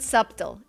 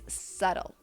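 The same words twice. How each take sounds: First: A b sound is pronounced in the middle. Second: The middle has no b sound at all. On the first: The speaker calls it wrong. "Don't pronounce the B. It's not subtle" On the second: The speaker calls it right. "it's subtle"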